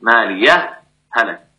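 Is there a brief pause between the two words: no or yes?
yes. A brief breathless pause separates the two words. "تسكت تظهر مع السكت"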